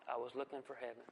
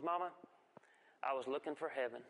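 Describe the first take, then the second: First: Soft echoed repeat. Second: Put-on innocent child's answer. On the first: Shown as a demonstration. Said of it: "echoing the line for effect". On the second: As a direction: answer like a guileless five-year-old.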